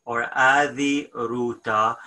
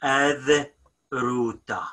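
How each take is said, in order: First: "adi" said in full, final i sounded, before "ruta"; teacher modelling the full "adi ruta" for emphasis; full form. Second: "ad" said clipped with no final vowel before "ruta"; teacher modelling the short spoken "ad ruta"; short form. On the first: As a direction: pronounce the whole word "adi" with its ending. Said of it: "Always when we have the extra". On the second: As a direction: drop the ending of "adi" and say "ad ruta". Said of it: "So it's gonna be ad ruta". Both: Shown as a demonstration.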